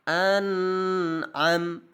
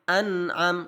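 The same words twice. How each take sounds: First: The n sound is held for two beats. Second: The n sound moves on directly, held briefly. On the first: The speaker calls it wrong. "lebih dari satu harokat ... tidak boleh" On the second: The speaker calls it right. "Yang benar adalah an am an am langsung"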